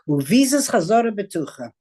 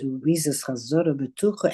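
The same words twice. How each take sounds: First: It is said like a confident exclamation. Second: It is said like a doubtful question.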